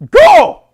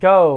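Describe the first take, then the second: First: It is said forcefully, with authority. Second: It is said tentatively, without authority.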